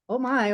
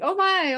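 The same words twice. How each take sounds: First: It sounds fearful and anxious. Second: It sounds excited and eager.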